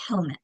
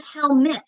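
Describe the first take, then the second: First: Helmet with a weak, quick "muht" at the end; schwa second syllable. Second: Helmet with a clear "met" at the end; full second vowel. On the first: Teacher showing the natural form, helmet ending in a weak schwa. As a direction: stress HEL, reduce the end of helmet. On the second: Teacher showing the wrong form, helmet ending in a full-vowelled syllable. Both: Shown as a demonstration. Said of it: "second syllable unaccented in schwas".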